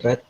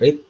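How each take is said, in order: First: The vowel is short, like in 'bed'. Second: The vowel is long, like in 'seed'. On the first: It is the past form of the verb. "kemudian red" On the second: It is the present form of the verb. "Pertama read"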